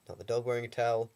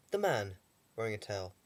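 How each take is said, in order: First: Quick, with the word dog picked out in contrast; stress on dog. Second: Man pushed out as the correction, the sentence then falls; stress on man. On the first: Correcting himself about the towel, dog stressed. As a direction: hit dog as the thing it's not. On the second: Correcting himself about the towel, man stressed. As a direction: lean on man to set the record straight. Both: Shown as a demonstration.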